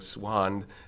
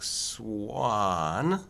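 First: The vowel is said with unrounded lips. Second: The vowel is said with rounded lips.

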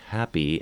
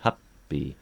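First: The middle P sound is short and single. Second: The middle P sound is held long, doubled. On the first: "a word like happy" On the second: "they're trying to articulate the two P's"

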